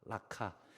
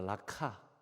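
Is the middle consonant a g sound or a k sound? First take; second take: k sound; k sound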